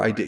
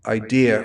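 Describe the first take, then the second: First: Said in the usual way. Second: "idea" rhymed with deer; R added to idea. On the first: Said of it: "idea for idea". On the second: Shown as a demonstration. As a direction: say "idea" with an R on the end, like "idear". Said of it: "makes fun of me because I say".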